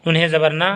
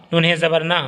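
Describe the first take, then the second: No difference in how they are said.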